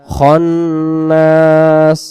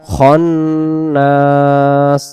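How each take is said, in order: Both takes have the same delivery.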